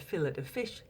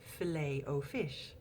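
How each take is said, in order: First: Fillet is said the British way, sounding the t. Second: Filet is said the American way, silent t.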